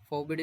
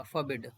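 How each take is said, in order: First: फॉरबिड as 'foh-bid', full o sounded; mispronounced full o. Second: फॉरबिड as 'fuh-BID', weak first vowel; don't sound the o in फॉरबिड, say 'fuh'; reduced first vowel. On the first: Teacher shows students the mistake, फॉरबिड with a full 'foh'. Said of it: "फॉरबिड नहीं होगा". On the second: Teacher models the correct word, फॉरबिड as 'fuh-bid'. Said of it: "ओ को नहीं pronounce करेंगे". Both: Shown as a demonstration.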